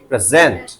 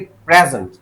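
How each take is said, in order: First: The stress is on the second syllable. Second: The stress is on the first syllable. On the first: It is a verb meaning to give or show. "Stress लगाया यहां" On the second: It is a noun meaning a gift. "Present मतलब gift."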